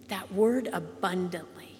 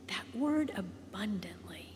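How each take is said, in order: First: Said in the usual way. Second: That word abundantly, whispered and much softer. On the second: Shown as a demonstration. Preacher savouring a Bible word for the congregation, whispered.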